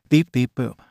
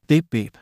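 First: Crisp affirmative robot beeping; robot beeps. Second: Higher, bouncy pleased robot beeps; happy robot beeps. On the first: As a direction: beep like a cheerful robot saying yes. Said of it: "He beeped in affirmation". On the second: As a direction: beep like a delighted little robot. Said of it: "He beeped with happiness". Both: Acted.

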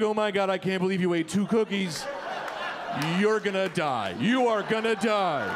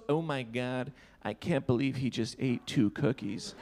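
First: Imitating her grave concern; alarmed warning. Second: Low, softish mock disgust; rude disgust. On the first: Party girl to man who ate two cookies, alarmed warning. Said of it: "was trying to warn me". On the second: Party girl to her friend about two cookies, rude disgust. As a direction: imitate her judging him under her breath. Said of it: "Why was she so rude".

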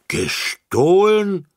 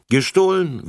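First: Very high, loud, slow indignant question; children crying out indignantly at the news; outraged cry. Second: High, loud, firmly confirming the word; firm repetition. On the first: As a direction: cry out in shocked disbelief. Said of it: "riefen die Kinder empört". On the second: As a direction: repeat it back with finality. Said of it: "wiederholte Frau Rasselbusch". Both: A narrator's reading.

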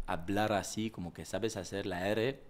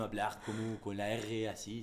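First: French accent with a lightly polished R. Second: Slow, exaggerated French-accented R; clichéd French R. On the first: Actor showing his refined version, light French accent. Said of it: "la R esa la pulí". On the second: Actor explaining the cliché, stock French accent. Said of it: "el cliché es". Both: Shown as a demonstration.

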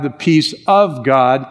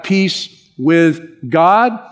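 First: "of" punched as the contrasting word; stress on OF. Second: "with" set apart, slow and deliberate; stress on WITH. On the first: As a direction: peace OF God, not rushed over. Contrasts "of" with earlier "with. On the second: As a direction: peace WITH God, spaced out. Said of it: "underline the word with". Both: Real, not acted.

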